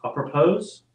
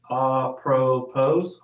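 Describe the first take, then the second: First: "apropos" ending like "pose"; sounded final s. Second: "apropos" ending in an open "oh"; silent final s. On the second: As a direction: leave the s off "apropos", ah-pruh-POH. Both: Shown as a demonstration. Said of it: "I think I said that right".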